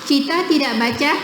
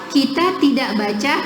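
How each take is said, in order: Both takes have the same delivery.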